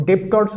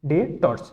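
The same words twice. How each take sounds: First: ডেবটর্স with the b sounded, as students say it; wrong pronunciation. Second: ডেটর্স with a silent b, said as "detors"; correct pronunciation. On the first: Teacher showing students the common mistake, with the b sounded. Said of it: "but এটা ডেবটর্স হবে না". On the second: Teacher modelling the right form for students, b silent. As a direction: say ডেটর্স cleanly, no b sound. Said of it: "উচ্চারণ হবে, সেটি হবে ডেটর্স". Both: Shown as a demonstration.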